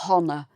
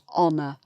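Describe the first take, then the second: First: The word begins with an audible H sound. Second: The word begins directly with a vowel sound. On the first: The speaker calls it wrong. "We don't say honour" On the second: The speaker calls it right. "it's honour"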